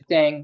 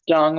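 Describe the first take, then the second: First: The name is said with an English-style vowel. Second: The name is said with a Chinese-like vowel. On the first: The speaker calls it wrong. "I would say Dang because that's like the Anglo" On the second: The speaker calls it right. "it's it's Dung. My friend corrected me"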